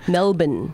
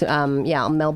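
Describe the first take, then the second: First: It is pronounced the way locals say it. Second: It is pronounced the way outsiders often say it. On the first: The speaker calls it right. "Do I say it correctly?" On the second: The speaker calls it wrong. "Because people often say like Melbourne"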